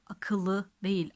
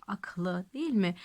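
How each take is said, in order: First: Akıllı said slowly with both vowels kept, as the wrong form. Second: Aklı with the second vowel dropped, two syllables; right form aklı. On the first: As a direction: stretch out akıllı, keeping the second ı. (akıllı kelimesini yavaşça, ikinci ı sesini koruyarak söyle) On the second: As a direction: say aklı short, no vowel between k and l. (aklı kelimesini iki hecede, ünlüsüz söyle) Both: Shown as a demonstration.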